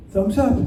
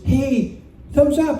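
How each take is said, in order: First: Said in the usual way. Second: Woman's cheery signal, pitched high; lightly put-on higher voice for the woman; imitated woman. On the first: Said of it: "And I went". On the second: Woman on the dock signalling to the rider, imitated woman's voice. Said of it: "and she goes".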